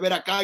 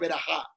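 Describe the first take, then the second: First: The middle consonant is a hard k sound. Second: The middle consonant is a raspy throat sound. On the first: The speaker calls it wrong. "la gente dice ver acá y no es ver acá" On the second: The speaker calls it right. "en hebreo se dice ver ajá"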